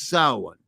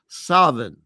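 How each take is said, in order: First: It is said in the Irish Gaelic way. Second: It is said like 'Savin', with a v. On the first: "it's Irish Gaelic, so it's" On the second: "in some rare areas of Ireland, it's pronounced"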